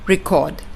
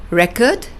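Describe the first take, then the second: First: Re-CORD, the verb; light "re", land on "CORD" in "record"; stress on second syllable. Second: REC-ord, the noun; stress on first syllable. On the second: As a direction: punch the "REC" of "record", light second syllable. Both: Shown as a demonstration. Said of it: "according to your syllable stress pattern".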